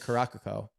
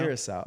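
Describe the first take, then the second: First: The name ends with a 'cah-co' sound. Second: The name ends with a 'cow' sound. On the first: The speaker calls it wrong. "I've been saying Caracaco" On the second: The speaker calls it right. "that's how you say it"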